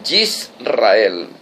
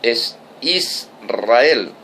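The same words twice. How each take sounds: First: Yisrael with a y sound at the start; Hebrew Yisrael. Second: Israel said slowly, starting on a clean i, is-ra-EL; Spanish Israel. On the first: Preacher showing the Hebrew name Yisrael. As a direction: Yisrael said yis-ra-EL, Hebrew-style. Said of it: "en español es Israel". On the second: Preacher giving the Spanish form, slowly. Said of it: "español". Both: Shown as a demonstration.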